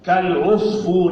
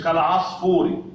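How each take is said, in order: First: كالعصفور as "kal-'usfour"; damma on ع. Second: كالعصفور as "kal-'asfour"; wrong fatha on ع. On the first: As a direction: round the vowel after ع in كالعصفور. (كالعصفور بضم العين) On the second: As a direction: put an a after ع in كالعصفور. (كالعصفور بفتح العين خطأً) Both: Shown as a demonstration. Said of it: "مش كالعصفور".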